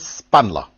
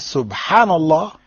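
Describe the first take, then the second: First: It is said fast with syllables dropped. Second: It is said slowly with every syllable.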